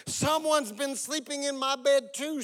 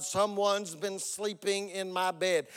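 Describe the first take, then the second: First: High storybook bear voice; Mama Bear. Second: Slow, mild bear growl; Papa Bear. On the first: Mother bear finds her bed slept in, high voice. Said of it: "said Mama Bear". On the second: Papa Bear finds his bed slept in, mild growl. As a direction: lightly growl it out, taking your time. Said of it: "Papa Bear growled". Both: A narrator's reading.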